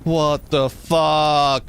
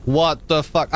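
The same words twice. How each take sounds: First: Drawn-out, very slow disbelieving what the fuck; slow disbelief. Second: Said in the usual way. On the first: Real, not acted. Streamer staring at his burning tree, slow stunned disbelief. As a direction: stretch it out in shock.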